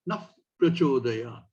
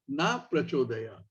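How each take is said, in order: First: A breathy sound follows 'na' before the next word. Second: 'Na' ends cleanly with no breathy sound. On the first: It asks for right decision making. The speaker calls it right. "together with Prachodayat, becomes Naf Prachodayat" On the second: It asks for the opposite of what is wanted. The speaker calls it wrong. "if it's pronounced wrongly"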